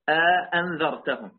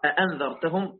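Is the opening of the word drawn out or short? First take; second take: drawn out; short. First: A long vowel is inserted between the two opening hamzas. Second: The two opening hamzas follow directly with nothing between. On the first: "يعني يجعل بين الهمزتين ألفا" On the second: "نحن نقرأ أأنذرتهم هكذا مباشرة"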